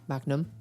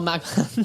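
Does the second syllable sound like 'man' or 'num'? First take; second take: num; man. First: The second syllable sounds like 'num'. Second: The second syllable sounds like 'man'. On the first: This is how it is said now. "now you do" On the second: This is how it used to be said. "It used to be Magman"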